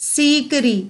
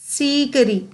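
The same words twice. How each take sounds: No difference in how they are said.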